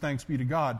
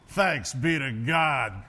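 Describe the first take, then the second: First: It is said as a plain, formal response. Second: It is said with a weary, relieved inflection. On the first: It is the ordinary ritual reply. "The response of the people is" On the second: The speaker is glad the service is over. "It was a different inflection"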